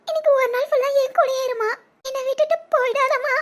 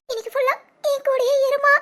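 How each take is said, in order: First: Crying plea. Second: Said in the usual way. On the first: Acted. Daughter begs mother to stay.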